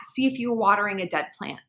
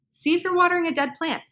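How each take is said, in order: First: Said in the usual way. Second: "watering" lifted high, then a falling close; repeated for emphasis. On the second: Shown as a demonstration. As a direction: stress "watering" in a higher voice.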